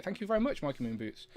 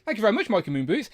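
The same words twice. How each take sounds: First: Softer, dropping thanks; quiet. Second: Said in the usual way. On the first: Real, not acted. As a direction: say it again under your breath, falling. Thanking a donor twice.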